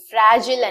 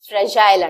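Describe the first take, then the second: First: The last syllable is a short 'jil'. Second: The last syllable rhymes with 'mile'. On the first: This is the American pronunciation. "Americans pronounce చేస్తారు" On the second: This is the British and Indian pronunciation. "According to Britishers and Indian English"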